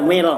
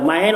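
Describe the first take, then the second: First: The vowel after m is a long ee. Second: The vowel after m is the diphthong ai. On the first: It is a distance of about one and a half kilometres. "kalau dibacakan mil, ya itu satu jarak satu kilo lebih" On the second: It is the small stick used to clean the ear. "ada juga yang baca tuh mail, ... mimnya patah tuh"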